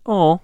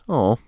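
First: It is said in a high-pitched voice. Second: It is said in a deep voice.

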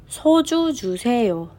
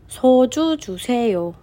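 No difference in how they are said.

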